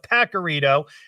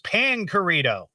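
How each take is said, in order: First: The first syllable has no n sound. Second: The first syllable has an n sound. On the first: The speaker calls it wrong. "I was calling it the Pacarito" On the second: The speaker calls it right. "It's Pancarito"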